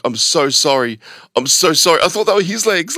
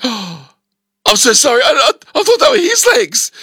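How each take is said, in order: First: Said in the usual way. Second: High, rushed, mortified apology; squeaky embarrassed sorry; flustered apology. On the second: Retold or imitated. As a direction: blurt out the sorry in a panic. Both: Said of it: "I'm like".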